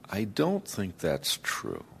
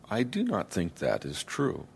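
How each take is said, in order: First: The words are contracted and linked together. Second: Each word is said fully and separately. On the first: "the word connections, don't, do not, that's, that is, changed the rhythm" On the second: "the rhythm was quite different"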